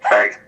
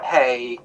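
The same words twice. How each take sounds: First: It is said in a deep, gravelly voice. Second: It is said in a light, soft voice.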